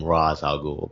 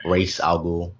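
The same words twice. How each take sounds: First: "Ra's" said with an open AH, like "Roz"; Rahz pronunciation. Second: "Ra's" said with a long AY, like "race"; Raysh pronunciation. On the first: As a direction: say "Ra's" as "rahz" before "al Ghul". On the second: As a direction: say "Ra's" as "race" before "al Ghul". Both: Shown as a demonstration. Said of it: "some people pronounce his name".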